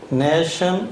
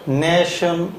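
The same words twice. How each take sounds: First: "national." said with a short "네", the a kept short; short first vowel. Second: "national" with a short "네" first syllable, not "네이"; short first vowel. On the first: Teacher repeats "national." with the short "네" for students. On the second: Teacher models the shortened vowel in "national" for the class. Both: Shown as a demonstration. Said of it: "이때 발음이 네하고 단모음이 됩니다".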